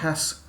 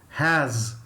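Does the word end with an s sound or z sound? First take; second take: s sound; z sound. First: The word ends with an s sound. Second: The word ends with a z sound. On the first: The speaker calls it wrong. "It's not has" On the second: The speaker calls it right. "Z sound"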